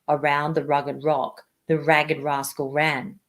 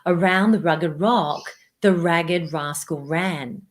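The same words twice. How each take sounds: First: The voice is pitched very low. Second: The voice is pitched higher. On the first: "Let's try the lowest pitch together" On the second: "So now I'm going to lift the pitch"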